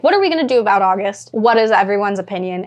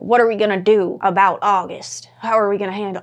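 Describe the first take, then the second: First: Said in the usual way. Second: A hint of a Southern American accent; mildly Southern-accented villager. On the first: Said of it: "They definitely wouldn't have a Southern accent". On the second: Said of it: "I don't know why I gave them a Southern accent".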